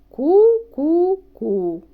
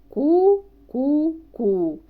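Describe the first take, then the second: The two takes are said the same way.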